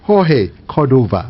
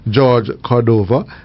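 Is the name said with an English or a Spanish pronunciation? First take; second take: Spanish; English. First: The name is said with a Spanish pronunciation. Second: The name is said with an English pronunciation.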